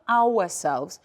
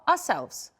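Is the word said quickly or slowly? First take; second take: slowly; quickly. First: The word is said slowly and fully. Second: The word is said quickly and reduced. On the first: The speaker calls it wrong. "we pronounce it is not ourselves" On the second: The speaker calls it right. "We make it faster"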